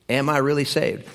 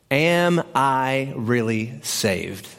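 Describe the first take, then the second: First: Said in the usual way. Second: Very slow, word by word; weighty question. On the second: Shown as a demonstration. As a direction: spell out the big question slowly, deliberately. Announcing the big question.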